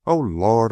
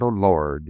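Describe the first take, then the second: First: Said in the usual way. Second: Put-on old servant murmuring, lower, in a Southern accent; murmured, drifting Southern accent. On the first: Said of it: "he murmured". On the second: A narrator's reading. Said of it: "his voice changing and thickening ... soft Southern accent".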